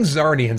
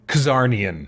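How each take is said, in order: First: The word begins with a plain z sound. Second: The word begins with a k sound before z. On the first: "I've been saying Zarnians" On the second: "I'm going to say Kazarnian. I don't know, it just sounds more alien"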